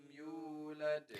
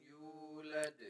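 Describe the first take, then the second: The two takes are said the same way.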